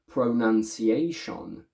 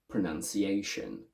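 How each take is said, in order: First: Every vowel is pronounced fully. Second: The unstressed vowels are reduced to schwa. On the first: The speaker calls it wrong. "pronounce them first with a full sound everywhere" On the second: The speaker calls it right. "then I want you to pronounce them correctly"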